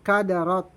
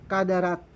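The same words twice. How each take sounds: First: The r is pronounced thick and heavy. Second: The r is pronounced thin and light. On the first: The speaker calls it right. "Kailangan ra. Kaya kadarat" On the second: The speaker calls it wrong. "Hindi kadarat"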